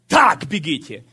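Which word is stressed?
так. The stress falls on the word так. Run in a particular way, so as to win. The speaker calls it right. "Они не читали"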